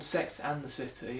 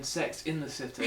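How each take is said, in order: First: "and" picked out in the title; stress on AND. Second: "in" picked out in the title; stress on IN. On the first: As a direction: question the word "and". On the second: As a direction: insist on the word "in". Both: Retold or imitated. Quoted commenter contrasting the two titles.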